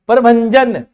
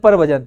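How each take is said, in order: First: A nasal sound comes before the 'j'. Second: No nasal sound comes before the 'j'. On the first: The speaker calls it right. "भजन नहीं है। भय के ऊपर अनुस्वार नहीं लग रहा, नैन की ध्वनि है।" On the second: The speaker calls it wrong. "तो वो गलत हो जाएगा बिल्कुल।"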